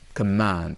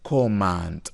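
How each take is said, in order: First: The first vowel is a reduced schwa sound. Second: The first vowel is a full O sound. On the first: The speaker calls it right. "It is com, c, command. Okay, so here is ashwa" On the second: The speaker calls it wrong. "It's not command"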